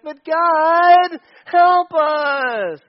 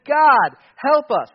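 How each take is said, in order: First: High, whiny plea; high whiny "But God" plea; whining. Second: Loud plea. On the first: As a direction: beg like a whining child. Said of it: "exactly what the Midianites are doing". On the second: Israelites crying out to God. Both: Retold or imitated.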